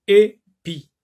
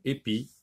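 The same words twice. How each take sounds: First: "Épi" in two separated syllables, first one high and loud. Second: Said in the usual way. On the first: Shown as a demonstration. Teacher showing pupils the first syllable, "Épi" syllable by syllable. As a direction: split "Épi" with a pause, punching the first syllable. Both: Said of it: "Dans la première syllabe".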